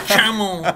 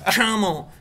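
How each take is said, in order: First: It begins with a soft 'sh' sound. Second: The same.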